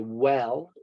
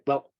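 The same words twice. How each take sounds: First: It is said slowly and loudly. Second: It is said quickly and quietly. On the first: The speaker calls it wrong. "we don't say" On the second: The speaker calls it right. "we might say"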